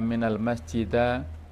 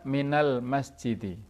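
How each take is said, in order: First: The last word ends in an a vowel. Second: The last word ends in an i vowel. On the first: The speaker calls it wrong. "Tidak boleh kita baca" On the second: The speaker calls it right. "Jadi harus dibaca"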